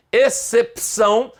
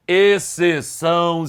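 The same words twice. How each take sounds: First: Excepção with a distinct P before ção; pronounced P. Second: Exceção slowly, without any P; no P sound. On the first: Teacher naming the archaic form, Excepção with P sounded. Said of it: "com P". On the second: Teacher giving the current form, Exceção without P. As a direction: leave out the P in Exceção. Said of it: "sem P antes". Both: Shown as a demonstration.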